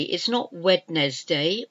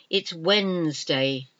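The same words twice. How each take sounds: First: "Wednesday" said as spelled, all three syllables Wed-nes-day; spelling pronunciation. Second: "Wednesday" said as two syllables, WENZ-day; correct pronunciation. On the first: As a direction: sound the d and the middle e in "Wednesday". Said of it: "although that's how it's spelled". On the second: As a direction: drop the d and middle e in "Wednesday". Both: Shown as a demonstration.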